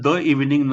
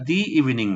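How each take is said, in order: First: The word 'the' is said as short 'thuh'. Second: The word 'the' is said as long 'thee'. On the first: The speaker calls it wrong. "द evening न म्हणता" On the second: The speaker calls it right. "त्याला दी evening म्हणतात"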